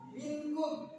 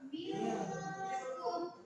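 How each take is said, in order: First: The n is pronounced as a clear, full n. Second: The n is hidden in a nasal sound. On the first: The speaker calls it wrong. "jikalau orang tidak paham tajwid, ia akan membacanya minkum" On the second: The speaker calls it right. "kalau orang sudah paham tentang tajwid, dia akan membaca minkum"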